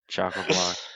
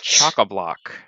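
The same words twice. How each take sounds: First: It is said in a flatter, more miserable tone. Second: It is said in a happy, cheerful tone. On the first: The speaker calls it right. "That's much better" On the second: The speaker calls it wrong. "You sound too happy about words"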